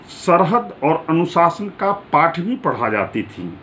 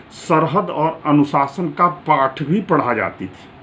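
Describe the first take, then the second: Both takes have the same delivery.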